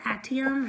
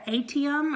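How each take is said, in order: First: Reader trying another way of saying "atium"; "atium" offered as the alternative pronunciation. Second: Reader trying one way of saying "atium", first guess; "atium" offered as one possible pronunciation. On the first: Vlogger unsure how to say a book's word, alternative pronunciation of "atium". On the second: Vlogger unsure how to say a book's word, first pronunciation of "atium". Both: Shown as a demonstration. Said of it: "however you say it".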